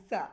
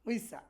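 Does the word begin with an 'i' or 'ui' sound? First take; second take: i; ui. First: The word begins with a plain 'i' sound. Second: The word begins with a gliding 'ui' sound. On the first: This is the advanced, native-like pronunciation. "Advance লেভেলে যদি আপনি উচ্চারণ করতে যান সেটা হবে ইসা ইসা" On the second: This is how foreign learners say it. "আমরা যারা আহ, বিদেশি আছি আমরা বলবো উইসা"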